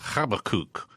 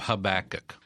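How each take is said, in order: First: The name has its Hebrew pronunciation. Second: The name has its usual English pronunciation. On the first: "the way you pronounce it in Hebrew is Habakkuk" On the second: "we call him Habakkuk"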